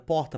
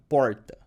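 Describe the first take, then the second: First: It has a put-on northeastern Brazilian accent. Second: The R is a curled, retroflex country-style R.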